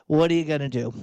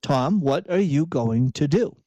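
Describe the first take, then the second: First: Resigned, hands-thrown-up shrug of a question; giving up, it is what it is. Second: Measured, pointed "going to do", no shrug; self-directed imperative. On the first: Acted. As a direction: say it like you're powerless to change it. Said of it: "throw your hands up in resignation". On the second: Shown as a demonstration. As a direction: pose "what are you going to do" to yourself as a challenge, every word full. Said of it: "say it as an imperative that you're, you're proposing to yourself".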